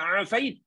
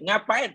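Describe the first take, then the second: First: The word begins with a plain vowel. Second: The word begins with an ng sound. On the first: The speaker calls it right. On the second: The speaker calls it wrong.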